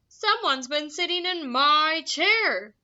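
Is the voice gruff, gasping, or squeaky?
gruff. It is said in a gruff, grumbling voice.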